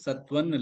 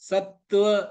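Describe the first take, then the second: First: The t sound is short and single. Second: The t sound is doubled and held. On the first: The speaker calls it wrong. "சத்வன் இல்ல" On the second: The speaker calls it right. "ரெண்டு இத்து இருக்கு"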